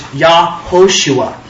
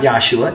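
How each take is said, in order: First: The name is said with four syllables. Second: The name is said with three syllables. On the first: The speaker calls it right. "Jesus' name in the Hebrew is Yahoshua" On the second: The speaker calls it wrong. "Some people say it's Yahshua. It's not Yahshua"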